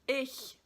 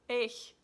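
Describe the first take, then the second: First: The word ends in a soft hissing sound. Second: The word ends in a soft hissing sound.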